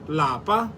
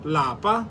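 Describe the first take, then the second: First: The word is said with a high tone. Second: The same.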